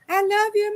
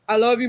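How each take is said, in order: First: It is said in a high, sweet childlike voice. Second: It is said in a deep, manly voice. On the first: A small child is speaking. "that little sweet cutesy voice" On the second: A grown young man is speaking. "It's like that deep man voice now"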